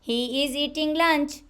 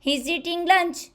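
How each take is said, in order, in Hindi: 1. He और is दो पूरे शब्दों की तरह बोले जाते हैं। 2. He और is एक ही अक्षर में जुड़ जाते हैं।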